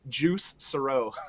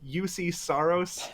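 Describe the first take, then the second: First: The first name is one syllable, 'juice'. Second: The first name has two syllables, 'yoo-see'. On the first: The speaker calls it wrong. "I watched somebody butcher this name" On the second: The speaker calls it right. "the correct pronunciations"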